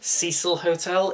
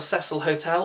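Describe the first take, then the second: First: Cecil is pronounced in an American way. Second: Cecil is pronounced in a non-American way.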